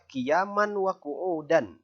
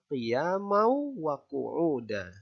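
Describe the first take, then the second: First: A clear 'n' sound is heard before 'wa'. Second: The 'n' merges into a nasal 'w' sound. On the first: The speaker calls it wrong. "jangan nanti dibaca" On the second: The speaker calls it right. "Yang benar adalah"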